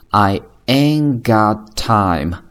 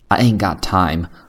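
First: The phrase is said slowly. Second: The phrase is said at normal speed.

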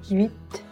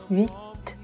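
First: The sounds glide quickly into one syllable. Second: The same.

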